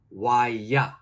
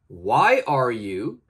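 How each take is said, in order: First: The words 'are you' are reduced to 'ya'. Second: The words 'are you' are said in full.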